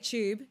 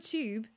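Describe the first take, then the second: First: It is said in her own everyday accent. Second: It is said in a posh British accent. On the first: "but I would say tube" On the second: "I'm trying to do Katie Locker, our friend, who says like everything very posh"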